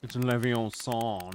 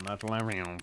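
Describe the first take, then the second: First: Leviathan mangled to "Leviosong", slow and mocking; imitating the other's Leviathan. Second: Said in the usual way. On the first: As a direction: parody the friend's "Leviosong". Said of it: "that's how you sound".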